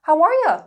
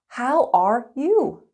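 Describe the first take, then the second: First: It is spoken fast with 'you' reduced to ya. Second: It is spoken slowly with a full 'you'. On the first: "Fast and natural" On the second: "Slow and clear"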